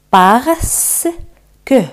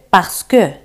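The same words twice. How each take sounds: First: "parce" drawn out, then a separate "que"; slow split drill of "parce que"; repeat-after-me syllables. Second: "parce que" run together; connected model of "parce que"; repeat-after-me whole word. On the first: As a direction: stretch "parce" and pause before "que". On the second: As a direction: say "parce que" in one quick piece. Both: Shown as a demonstration. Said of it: "Repetid conmigo".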